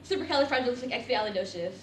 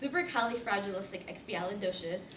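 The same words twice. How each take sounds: First: It is said quickly, syllables run together. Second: It is said slowly, each syllable clear.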